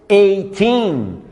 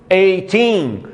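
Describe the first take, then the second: No difference in how they are said.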